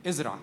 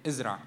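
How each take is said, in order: First: The word ازرع said low and firm, falling at the end; ازرع answered curtly, low and falling; firm command. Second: ازرع said lower still, short and falling; ازرع clipped and final; firm command. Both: Shown as a demonstration.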